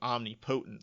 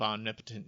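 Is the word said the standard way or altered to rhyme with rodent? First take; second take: altered; standard. First: The word is bent to rhyme with rodent. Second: The word is said in its usual standard way. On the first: "screws up the pronunciation ... so it rhymes with Odin and rodent" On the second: "the pronunciation of omnipotent"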